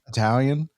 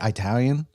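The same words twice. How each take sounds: First: It is said with a standard accent. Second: It is said with a Chicago accent. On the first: "instead of Italian" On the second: "I say Italian"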